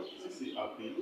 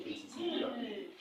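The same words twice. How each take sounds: First: Said in the usual way. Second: "mais si c'est être appelé" jumping much higher in pitch; contrast stress. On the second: Shown as a demonstration. Teacher contrasting two verb forms for the class, pitched higher. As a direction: lift "être appelé" high to set it against "appelé". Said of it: "Vous voyez, si c'est appelé".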